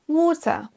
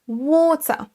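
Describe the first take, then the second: First: It is said in a British accent. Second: The same.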